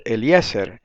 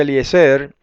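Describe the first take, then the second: First: Eliezer the Hebrew way, stressed on the E before zer; pronúncia hebraica. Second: Eliezer as most people say it, stressed on the last syllable; pronúncia popular. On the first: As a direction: say Eliezer with stress off the last syllable. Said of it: "pero el hebreo dice Eliezer". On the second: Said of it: "todo el mundo dice Eliezer". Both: Shown as a demonstration.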